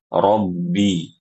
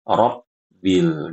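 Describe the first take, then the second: First: The b is soft and not forced. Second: The b is forced hard, sounding like p. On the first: The speaker calls it right. "Yang benar" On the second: The speaker calls it wrong. "jangan terlalu kuat saat membaca huruf ba-nya ... Ini huruf P"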